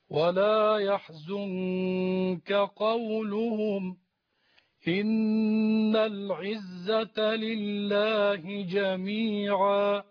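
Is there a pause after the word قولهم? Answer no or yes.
yes. There is a pause after قولهم. God's might is the reason the Prophet should not grieve. The speaker calls it right. "هنا الوقف ثم نبدأ"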